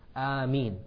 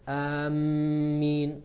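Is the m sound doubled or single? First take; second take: single; doubled. First: The m sound is single and short. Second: The m sound is doubled and held. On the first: The speaker calls it right. "the meme has a pure kasra" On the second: The speaker calls it wrong. "they put a shadda on the meme"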